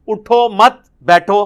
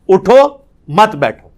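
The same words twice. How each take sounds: First: It is read together without a pause. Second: There is a pause after the first word.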